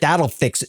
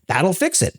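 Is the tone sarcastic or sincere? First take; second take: sarcastic; sincere. First: It is said in a sarcastic, mocking tone. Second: It is said in a sincere, earnest tone. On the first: Writing more software will not solve the problem. "usually that's a sarcastic thing to say" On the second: Writing more software really will solve the problem.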